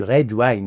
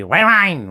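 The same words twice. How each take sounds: First: Said in the usual way. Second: "red wine" in a swooping mock Texan drawl; Texan accent. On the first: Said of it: "en fait il voulait du". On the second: Texan passenger orders "red wine", barked Texan accent. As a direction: bark "red wine" with smeared Texan vowels. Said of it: "mais il disait red wine".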